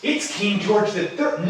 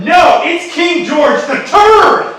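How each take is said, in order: First: Said in the usual way. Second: Loud, high, drawn-out cry; theatrical shout of recognition; outraged announcement. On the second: Acted. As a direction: proclaim it loudly, stretching the name. Louder correction on recognising the king.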